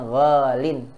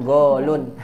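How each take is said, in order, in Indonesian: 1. Kata ini berakhir dengan bunyi -in. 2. Kata ini berakhir dengan bunyi -un. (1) "dibacanya golin" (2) "Tidak dibaca dengan golun"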